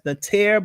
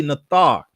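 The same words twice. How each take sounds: First: Natir, second syllable rhyming with "air"; others' pronunciation. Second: Nathar, ending in an open "thar"; corrected pronunciation. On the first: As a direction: say Natir with an "eh" vowel in the last syllable. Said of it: "Some people pronounce it as". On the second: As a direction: say Nathar with a long "ah" in the last syllable. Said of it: "the correct enunciation is really". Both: Shown as a demonstration.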